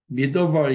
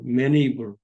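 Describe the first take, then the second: First: The middle consonant is a clear D sound. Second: The middle consonant sounds like an N. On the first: "우리는 어, 미더벌 이렇게 발음하고 싶은데" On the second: "D 발음을 N 같이 발음해요"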